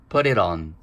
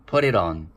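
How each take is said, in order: First: The three words are linked into one quick unit. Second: The same.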